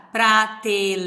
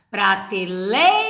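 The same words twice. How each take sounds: First: "prateleira" broken into separate syllables, the I on its own; syllables separated. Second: "prateleira" with LEI held long as one syllable; said joined. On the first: Teacher showing how not to say it, "prateleira" split syllable by syllable. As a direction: say "prateleira" piece by piece, splitting lei into le-i. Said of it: "você não fala separado". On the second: Teacher showing pupils the joined reading, "prateleira" with a long LEI. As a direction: keep lei together in "prateleira", stretching it. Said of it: "Você fala junto". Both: Shown as a demonstration.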